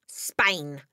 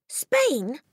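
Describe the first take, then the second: First: Said in the usual way. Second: Put-on high-pitched childish disbelief; shocked cry. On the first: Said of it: "the father said". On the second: A narrator's reading. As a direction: echo it in dismay, pitched high. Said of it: "Matilda cried".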